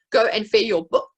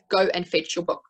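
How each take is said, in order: First: Put-on gapped message for the child to fill; with gaps. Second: Said in the usual way. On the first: Shown as a demonstration. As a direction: Go and fetch your book said with gaps, the ch of fetch dropped and louder. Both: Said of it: "fill in the gaps of a message".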